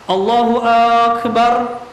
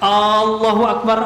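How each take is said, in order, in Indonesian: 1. Vokal pertama pada Akbar dipanjangkan. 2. Vokal pertama pada Allahu dipanjangkan. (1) "dipanjangkan huruf hamzah di akbarnya" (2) "kalau dipanjangkan"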